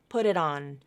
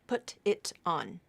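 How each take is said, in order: First: The T sounds are quick flaps linking the words. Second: The T sounds are full, clear T stops. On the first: The speaker calls it right. "so that's what this phrase typically will sound like" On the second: The speaker calls it wrong. "the true T"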